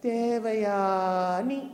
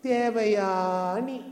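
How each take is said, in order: Both takes have the same delivery.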